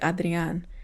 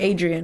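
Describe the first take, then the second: First: It is said with a heavy Spanish accent. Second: It is said plainly with an English accent.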